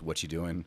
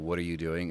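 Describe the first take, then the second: First: The word 'are' is dropped. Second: Every word is said, including 'are'. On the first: "it's what you doing" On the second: "instead of"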